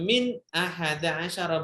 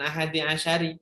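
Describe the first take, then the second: First: Both words end with an a vowel. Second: Both words end with an i vowel. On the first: The speaker calls it right. "saya baca min ahada asyara" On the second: The speaker calls it wrong. "bukan ahadi asyari"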